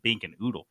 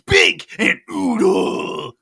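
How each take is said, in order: First: The names are said in a flat, plain way. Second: The names are said with lively, excited energy. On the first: The speaker calls it wrong. "It's not" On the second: The speaker calls it right. "way more radical"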